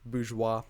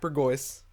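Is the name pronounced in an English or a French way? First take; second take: French; English. First: The name is pronounced in a French-style way. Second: The name is pronounced in an English-style way. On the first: "It's just the French French pronunciation" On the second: "Some people find Burgoyce too hard to pronounce"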